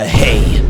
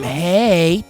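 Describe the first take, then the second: First: It is said in a deep, distorted voice. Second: It is said in a normal voice.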